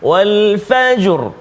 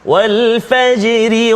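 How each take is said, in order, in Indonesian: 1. Kata itu berhenti dan bunyi r-nya tebal. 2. Kata itu tersambung terus dan bunyi r-nya tipis. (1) "maka dia bunyi tafkhim" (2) "kalau kita baca dengan wasal, dengan sambung, dia jadi tarqiq, tipis"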